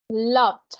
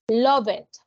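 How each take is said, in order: First: The ending is a single d sound. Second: The ending is said as an extra syllable. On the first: The speaker calls it right. "¿Escuchan esa D?" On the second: The speaker calls it wrong. "no va a pronunciar a visited, love it"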